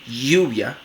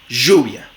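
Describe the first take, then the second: First: The first sound is a firm, frictional y. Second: The first sound is a buzzing zh. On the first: "como una fricativa palatal sonora" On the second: "Como fricativa postalveolar sonora"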